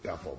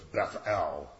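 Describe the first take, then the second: First: The stress is on the first syllable. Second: The stress is on the last syllable. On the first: The speaker calls it wrong. "everybody calls it Bethel" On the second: The speaker calls it right. "but it's Beth El. The L's the important part"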